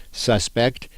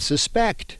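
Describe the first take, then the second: First: "suspect" said SUS-pekt, first syllable stressed; noun pronunciation. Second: "suspect" said suh-SPEKT, last syllable stressed; verb pronunciation. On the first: Teacher contrasting both meanings, SUS-pect as the noun. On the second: Teacher contrasting both meanings, sus-PECT as the verb. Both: Shown as a demonstration. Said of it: "the other pronunciation of the word".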